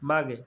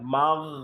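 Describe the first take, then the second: First: The word ends with an extra 'e' vowel. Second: The word ends on a held, stopped consonant. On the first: The speaker calls it wrong. "মাগে পড়ে ফেলি" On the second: The speaker calls it right. "আটকায় ফেলতে হবে"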